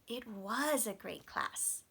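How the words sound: The word 'was' is stressed.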